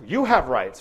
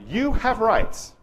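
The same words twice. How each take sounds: First: Said in the usual way. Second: "You have rights" slow, higher and louder, YOU stressed. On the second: Shown as a demonstration. Lecturer to clinicians, announcing "You have rights" slowly and emphatically. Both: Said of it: "let me say that out loud".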